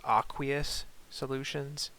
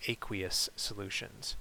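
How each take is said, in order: First: "aqueous" starting with AH, as AH-kwee-us; alternative pronunciation. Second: "aqueous" starting with AY, as AY-kwee-us; long-A pronunciation. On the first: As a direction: say "aqueous" with an open AH first, AH-kwee-us. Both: Shown as a demonstration. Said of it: "I've heard a few people pronounce it".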